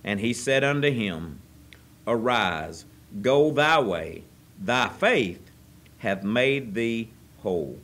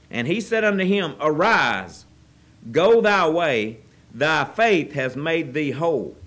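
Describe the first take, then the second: First: Slow, solemn King James reading; scripture reading. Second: Loud, slow proclaiming of the verse; forceful scripture reading. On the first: Preacher reading the verse to the congregation, solemn. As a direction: read the verse with reverence. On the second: Preacher rereading the verse to the congregation, louder and proclaiming. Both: Acted.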